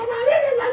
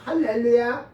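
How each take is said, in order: First: It is said very fast. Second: It is said at a normal speed.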